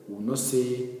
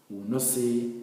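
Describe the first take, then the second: Both takes have the same delivery.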